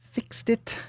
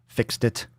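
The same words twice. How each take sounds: First: Squeaky, much higher pitch; tiny high-pitched boast; silly high voice. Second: Said in the usual way. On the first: Pretend. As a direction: pipe it up high, playfully.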